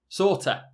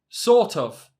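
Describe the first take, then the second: First: The word of is reduced to a. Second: The word of is said in full.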